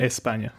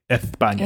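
First: The middle consonant is a plain 's' sound. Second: The middle consonant is a lisped 'th' sound. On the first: The speaker calls it right. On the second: The speaker calls it wrong.

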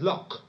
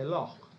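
First: It ends with a plain k, Cockney style. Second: It ends with a throaty guttural sound.

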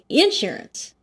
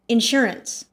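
First: The stress is on the first syllable. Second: The stress is on the second syllable. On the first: "You put the emphasis on the in" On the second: "with the emphasis on the sure"

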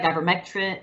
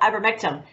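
First: The word ends with a 'tin' sound. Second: The word ends with a 'tum' sound. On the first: The speaker calls it right. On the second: The speaker calls it wrong.

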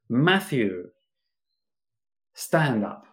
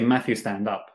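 First: There is a pause after the name. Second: There is no pause after the name. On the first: The speaker calls it right. "hacemos una pausa antes. I could say" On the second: The speaker calls it wrong. "I wouldn't say"

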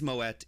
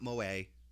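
First: The name is said with a Dutch-style pronunciation. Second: The name is said with a French-style pronunciation. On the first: The speaker calls it right. "it is Moët. It is a surname. It is a Dutch surname" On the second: The speaker calls it wrong. "It is not Moët. Even though it's French"

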